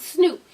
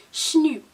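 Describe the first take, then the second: First: Said in the usual way. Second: SNOOP in an imitated Baltimore accent, starting "shn". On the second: Shown as a demonstration. Vlogger mimicking how Baltimore says the name, Baltimore accent. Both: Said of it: "y'all accent".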